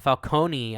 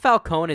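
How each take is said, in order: First: The name ends with a final 'ee' sound. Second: The name ends without a final 'ee' sound. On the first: "I think would you would need an I at the end of it to pronounce it that way" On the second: "I think Falcone is actually the accurate pronunciation of that name"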